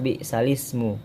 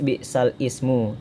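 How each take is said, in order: First: The two words run together without a stop. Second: A glottal stop separates the two words. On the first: This is how the phrase is actually recited. "tapi dibaca" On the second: This is how the phrase is spelled.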